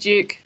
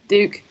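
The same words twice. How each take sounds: First: It is said in a British accent. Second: It is said in an American accent.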